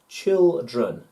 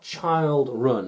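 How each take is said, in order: First: The first syllable sounds like 'chill'. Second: The first syllable sounds like 'child'. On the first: The speaker calls it right. "but chi- chilled, child, and chill, children" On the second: The speaker calls it wrong. "not child run"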